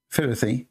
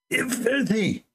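First: Said in the usual way. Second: Eh, filthy spat out much higher with contempt; hateful filthy. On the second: Shown as a demonstration. Commentator showing how the imam spits out filthy, contemptuous. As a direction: sneer filthy like a dirty word. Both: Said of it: "He did not just say filthy, like".

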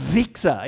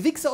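First: "Wichser" with a long buzzing W; long forceful W. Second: Said in the usual way. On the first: Shown as a demonstration. Teacher contrasting two takes, forceful long-W "Wichser". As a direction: drive "Wichser" up from the depths, W held. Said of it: "kommt aus der Tiefe heraus". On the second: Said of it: "das ist ein Unterschied".

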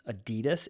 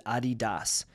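First: Adidas said uh-DEE-duhs; usual mispronunciation. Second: Adidas said AH-dee-dahs; real pronunciation. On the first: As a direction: stress the middle of Adidas, short "duhs" ending. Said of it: "I've been saying it wrong". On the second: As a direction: open "ah" to start Adidas, ending in a full "dahs". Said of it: "the real way to pronounce". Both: Shown as a demonstration.

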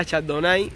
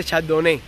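First: Chardonnay ending in "ai"; mistaken correction. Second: Chardonnay ending in "né"; vindicated pronunciation. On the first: Streamer quoting those who corrected him, Chardonnay ending "nai". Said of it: "y yo estaba diciendo bien". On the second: Streamer insisting he was right, Chardonnay ending "né". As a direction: say Chardonnay with final "eh", no "ai". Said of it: "yo estaba diciendo bien". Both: Shown as a demonstration.

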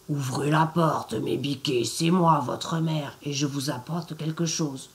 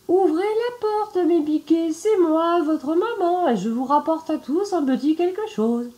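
First: A lightly lowered rough wolf voice, faking mum; gruff wolf. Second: Much higher and louder sugary wolf; sweet fake mother voice. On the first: Acted. Wolf at the door poses as the mother, in a low gruff voice. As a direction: growl it low like a wolf pretending. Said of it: "à sa grosse voix rauque". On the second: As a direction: coo it high, pretending to be mum. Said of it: "sa voix devint en effet plus douce".

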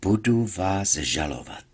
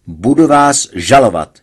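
First: Quiet, relishing threat; patient calmly relishes threatening the doctor; savouring. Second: Loud cry of a threat; patient shouts a threat at the doctor; shouted. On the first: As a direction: savour every word of it. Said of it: "vychutnal Hergeta". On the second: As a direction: yell it out at the doctor. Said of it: "vykřikl jsem". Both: A narrator's reading.

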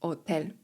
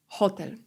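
First: "Hotel" without its H, as "otel"; silent H. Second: Said in the usual way. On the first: Shown as a demonstration. Teacher showing learners the Spanish word, silent H in "Hotel". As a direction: start "Hotel" straight on the O, no H sound. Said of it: "Ponownie, litera H jest niema". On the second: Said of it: "litera H jest niema".

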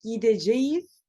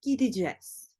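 First: "Gideceğiz" said in full, gi-de-ce-ğiz; careful letter-by-letter "Gideceğiz"; full written form. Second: "gideceğiz" said as "gidicez"; clipped everyday "gideceğiz" as "gidicez"; spoken form. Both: Shown as a demonstration. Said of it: "değil".

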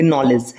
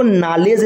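First: नॉलेज with a rounded "aw" in the first syllable. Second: नॉलेज said as "naa-lej"; open AA mispronunciation. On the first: Teacher shows how to read it, नॉलेज as "naw-lej". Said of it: "ऐसे पढ़ेंगे नॉलेज". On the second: Teacher shows the wrong reading, नॉलेज as "naa-lej". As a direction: flatten नॉलेज to an open "aa" in the first syllable. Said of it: "नहीं पढ़ेंगे". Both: Shown as a demonstration.

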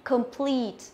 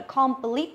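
First: "complete" with schwa first and long falling PLEET; corrected "complete", long ee; correct pronunciation. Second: "complete" with full KOM and short rising plit; mispronounced "complete", clipped final vowel; wrong pronunciation demo. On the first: Shown as a demonstration. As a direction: model "complete" properly, weak com, stressed second syllable. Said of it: "Cô đọc lại là complete". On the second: Retold or imitated. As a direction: imitate the mistaken "complete", open o. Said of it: "không phải là complete".

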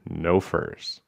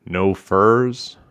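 First: "No furs" softly stated, falling; simple falling "furs", keeping a straight face; straight-faced answer. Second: "No furs" asked with a lift on furs; low-voiced question. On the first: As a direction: answer "No furs" deadpan and quieter. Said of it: "taking care to keep his straight face". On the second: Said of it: "In a low voice". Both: A narrator's reading.

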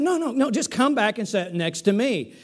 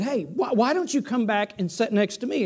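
First: Said in the usual way. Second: Gentle, kindly deacon asking politely; kindly, gently. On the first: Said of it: "He said". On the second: Retold or imitated. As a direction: coax him back like a kind usher. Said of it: "very kindly said".

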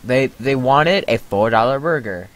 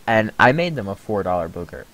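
First: Said in the usual way. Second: "booger" replacing burger, vowel like book. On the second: Pretend. Clerk joking about the order, burger said as "booger". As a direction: land on "booger" as the twisted burger.

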